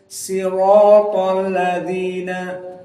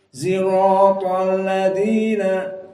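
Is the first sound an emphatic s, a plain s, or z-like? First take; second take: plain s; z-like. First: The first sound is a plain, light s. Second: The first sound is blended toward a z. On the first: "dengan sin" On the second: This is a third accepted reading. "al-ismam fi shad, yakni seperti zaid"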